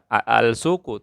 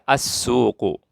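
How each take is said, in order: First: The article's l sound is clearly pronounced. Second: The l merges into a doubled s sound. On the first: The speaker calls it wrong. "al tidak dibaca al-suqu" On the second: The speaker calls it right. "tapi dibaca as-suqu"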